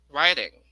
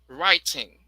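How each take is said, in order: First: The middle T sounds like a quick D. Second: The middle T is a crisp T sound. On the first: "American version" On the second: "In British"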